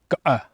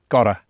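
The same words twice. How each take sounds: First: The middle consonant is a glottal stop. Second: The middle consonant is a t sound. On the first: This is how people in the south of the UK say it. "the bit between the uh and the o is a glottal stop" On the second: This is how people not from the south of the UK say it. "Whereas I say gotta, because I'm not from the south of the U K"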